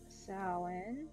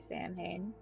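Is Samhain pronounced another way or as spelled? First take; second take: another way; as spelled. First: The word is not pronounced as spelled. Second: The word is pronounced as spelled.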